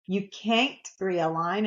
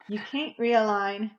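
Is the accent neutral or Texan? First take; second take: Texan; neutral. First: It is said with a Texas accent. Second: It is said without a Texas accent.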